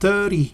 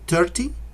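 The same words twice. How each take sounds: First: The t is said as a soft r-like tap. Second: The t is said as a clear t. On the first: "And the T sounds like an R" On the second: "Some people say thirty"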